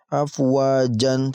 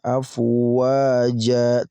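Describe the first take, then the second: First: The word ends in a short vowel plus n. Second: The word ends in a drawn-out long vowel. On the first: The speaker calls it wrong. "tidak boleh ya" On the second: The speaker calls it right. "dibaca panjang"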